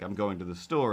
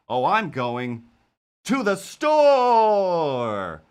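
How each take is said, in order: First: It is said in a plain, flat way. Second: It is said in a dramatic, anime-like way.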